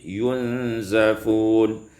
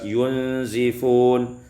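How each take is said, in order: First: The z is followed by an 'a' vowel. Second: The z is followed by a non-a vowel.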